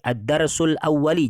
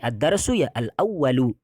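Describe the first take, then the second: First: The final word ends with an i vowel. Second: The final word ends with a u vowel. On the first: The speaker calls it wrong. "jangan sampai" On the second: The speaker calls it right. "Tapi ad-darsu ya al-awwalu. Ikut ya"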